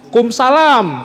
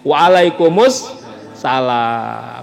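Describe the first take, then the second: First: The reply is clipped, dropping its opening syllables. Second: The reply is said in full, every syllable. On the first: The reply is given carelessly. The speaker calls it wrong. "jawab kum salam" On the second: The reply is given properly. The speaker calls it right. "mesti benar"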